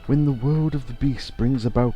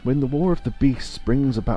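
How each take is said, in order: First: It is said in a put-on character voice. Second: It is said in the speaker's own natural voice.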